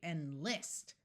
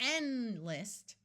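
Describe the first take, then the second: First: The stress is on the second syllable. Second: The stress is on the first syllable. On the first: The speaker calls it right. "where the second syllable is emphasized and spoken a little bit louder" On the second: The speaker calls it wrong. "That would have the first syllable accented"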